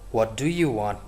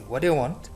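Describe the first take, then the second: First: Every word is pronounced fully and separately. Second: The words are run together quickly and reduced. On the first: "Instead of saying" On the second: "we can say ... So we sound fast"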